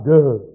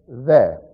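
First: The word begins with a d sound. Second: The word begins with a th sound. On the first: The speaker calls it wrong. "not de" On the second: The speaker calls it right. "D-E, not de. The"

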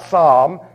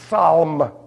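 First: The initial P is silent. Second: The initial P is pronounced. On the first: The speaker calls it wrong. "It's not psalm" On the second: The speaker calls it right. "pronounce every letter"

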